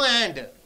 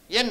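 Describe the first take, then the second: First: The word is said in full with its vowel and final d. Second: The word is reduced to a single n sound. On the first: The speaker calls it wrong. "No and" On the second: The speaker calls it right. "Only N"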